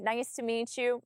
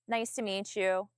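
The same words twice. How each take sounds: First: It is said with a smile, higher in tone. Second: It is said without a smile, lower in tone. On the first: The speaker calls it right. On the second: The speaker calls it wrong.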